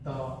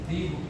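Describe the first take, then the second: First: The word ends in a short 'uh' vowel. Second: The word ends in a long 'ee' vowel. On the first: The next word starts with a consonant. "इसलिए हम लोग इसको क्या पढ़ेंगे, द" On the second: The next word starts with a vowel. "दी का उच्चारण करेंगे"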